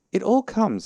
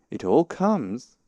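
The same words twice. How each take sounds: First: High, loud indignant complaint; cross. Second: Slow, louder, raised rebuke; stern. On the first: Pooh blaming Rabbit's front door, cross. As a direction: scold in a high, raised voice. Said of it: "said Pooh crossly". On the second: Rabbit rebuking stuck Pooh, stern. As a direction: spell it out slowly and firmly. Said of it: "said Rabbit sternly". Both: A narrator's reading.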